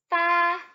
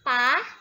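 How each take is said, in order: First: The syllable is said on a high level pitch. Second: The syllable is said with a rising pitch. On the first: It means the number eight. "Ini nada pertama ya" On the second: It means to pull out. "sekarang kita letakkan nada kedua di atas kepala si a"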